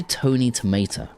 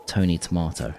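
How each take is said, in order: First: Said in the usual way. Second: Tony Tomato in a New York accent, Tomato as "tuh-MAR-toh". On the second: Shown as a demonstration. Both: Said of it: "in, like, a New York accent".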